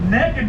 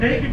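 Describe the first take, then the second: First: It is said the Southern way, like 'neck-id'. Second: It is said the standard way, like 'nay-kid'. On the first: You have no clothes on and are having fun. "we're in the South. ... There is a difference" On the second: You have no clothes on. "naked means you ain't got no clothes on"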